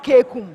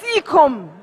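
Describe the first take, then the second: First: The word begins with a K sound. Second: The word begins with an S sound. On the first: The speaker calls it wrong. "not kekum" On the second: The speaker calls it right. "That's a proper pronunciation for that word"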